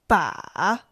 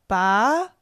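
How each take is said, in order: First: The pitch dips low, then rises. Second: The pitch rises from mid to high.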